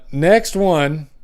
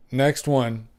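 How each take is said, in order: First: Next one, stretched long and slow; slow announcement. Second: Said in the usual way. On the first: Shown as a demonstration. Host reading funnies announces the next one, drawn out slowly. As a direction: drag out the announcement like a game show host. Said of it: "drawn-out announcement of next joke". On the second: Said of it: "quick repeat of the announcement".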